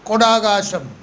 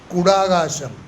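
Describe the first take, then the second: First: The first vowel sounds like 'o'. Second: The first vowel sounds like 'u'. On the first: This is the colloquial village form. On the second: This is the standard form.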